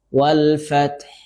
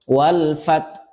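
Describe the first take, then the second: First: The final h sound is clearly pronounced. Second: The final h sound is left off. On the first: The speaker calls it right. "Harusnya haknya juga dibaca" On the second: The speaker calls it wrong. "meninggalkan huruf ha. ... ini salah ya"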